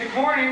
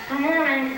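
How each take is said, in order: First: It is said clearly, with an empty mouth. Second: It is said muffled, as if chewing food. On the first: "instead of saying" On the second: "I say"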